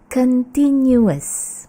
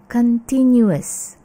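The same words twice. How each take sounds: Both takes have the same delivery.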